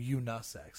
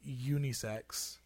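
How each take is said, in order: First: The first part ends in an 'uh' sound. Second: The first part ends in an 'ee' sound. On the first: The speaker calls it wrong. "You're literally creating a sound that's not there" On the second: The speaker calls it right. "is more accurate"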